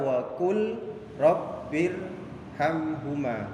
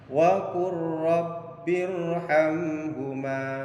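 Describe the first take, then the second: First: The l sound is pronounced separately before the r. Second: The l sound disappears, merging into a doubled r. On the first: The speaker calls it wrong. "Jadi tidak dibaca wa qul rabbirhamhuma" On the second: The speaker calls it right. "Jadi lamnya hilang masuk kepada huruf ra"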